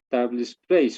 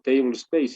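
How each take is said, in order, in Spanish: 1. Se pronuncia con sonidos españoles. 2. Se pronuncia con sonidos ingleses.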